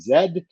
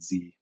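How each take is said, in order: First: The letter is said the British way, zed. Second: The letter is said the American way, zee.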